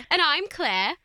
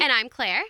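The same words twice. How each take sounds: First: It is said in a put-on British accent. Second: It is said in her usual American accent.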